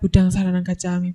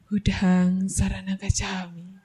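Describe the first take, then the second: First: The phrase is said quickly and hurriedly. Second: The phrase is said slowly, following the breath. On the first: It stirs up the anger even more. The speaker calls it wrong. "tidak cepat-cepat ... Itu malah menimbulkan emosinya" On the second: It helps calm the anger. The speaker calls it right. "coba ikuti nafasnya ... Perlahan-lahan"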